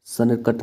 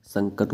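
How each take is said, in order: First: संकट with a separate n, "sanakat"; full n sound in संकट; wrong form. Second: संकट with a nasal "ng"; correct form. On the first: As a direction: say संकट broken as "san-kat". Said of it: "ये गलत हो जाएगा". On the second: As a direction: say संकट as "sang-kat". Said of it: "संकट होता है". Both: Shown as a demonstration.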